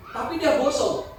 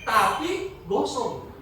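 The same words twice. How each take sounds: First: Said in the usual way. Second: "tapi gosong" drawn out slowly, stress on "tapi"; slow right down on "tapi gosong" for effect; slow, weighty repeat. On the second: Shown as a demonstration. Preacher repeats his point to the congregation, slow and weighty.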